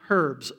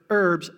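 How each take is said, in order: First: The word begins with a pronounced h. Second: The word begins with a silent h. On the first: The speaker calls it wrong. "not herbs" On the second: The speaker calls it right. "Silent H"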